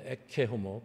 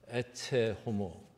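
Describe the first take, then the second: First: The middle consonant of ecce sounds like k. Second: The middle consonant of ecce sounds like ch. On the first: "발음 두 가지 다 가능한 발음인데" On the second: "발음 두 가지 다 가능한 발음인데"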